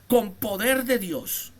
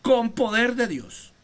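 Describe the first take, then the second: First: Con poder de Dios drawn out, slow and weighty; preacher stressing each word; slow emphasis. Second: Repeating the phrase with force; stress on CON. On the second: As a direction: open hard on "Con", then let it fall. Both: Shown as a demonstration.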